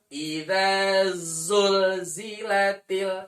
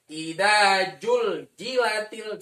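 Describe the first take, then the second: First: The second word begins with a buzzing z sound. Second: The second word begins with a j sound. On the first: The speaker calls it right. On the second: The speaker calls it wrong.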